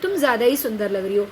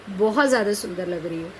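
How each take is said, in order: First: Quick, mock praise with a sarcastic edge; sarcastic compliment. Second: Lower, gently meant praise to a friend; sincere compliment. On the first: Teacher voicing a sarcastic jab at a friend's makeup, quick and mocking. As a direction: tease her over-done makeup with fake praise. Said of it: "इस भाषा में व्यंग है". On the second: Teacher voicing a sincere compliment to a friend, gently warm. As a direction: say it honestly, as real admiration. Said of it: "शब्द एक ही है ज़्यादा". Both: Shown as a demonstration.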